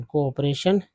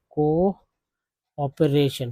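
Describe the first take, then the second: First: Said in the usual way. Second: कोऑपरेशन said very slowly, syllable by syllable: को-ऑप-रे-शन; slow syllable demo. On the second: Shown as a demonstration. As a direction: stretch out कोऑपरेशन piece by piece for students. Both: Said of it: "को, को बोलते हैं".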